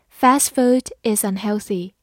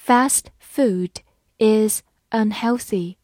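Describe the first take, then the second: First: Said in the usual way. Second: Slow, every word clear; slow reading. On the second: Shown as a demonstration. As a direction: read it slowly for students to repeat. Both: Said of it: "好，慢慢来读。".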